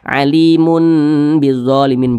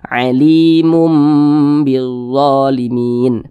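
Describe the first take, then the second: First: The ending before bizzalimin is an n sound. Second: The ending before bizzalimin is a nasal m sound. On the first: The speaker calls it wrong. "Jangan dibaca alimun" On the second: The speaker calls it right. "tapi dirubah menjadi mim"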